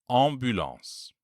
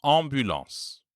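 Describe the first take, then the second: First: Ambulance drawn out slowly, both nasals held; slow repeat of ambulance; slow careful repeat. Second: Ambulance with a nasal am at start and end; French word. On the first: Teacher repeating the word slowly for students. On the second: Teacher modelling a French word with nasal am. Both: Shown as a demonstration. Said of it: "for example".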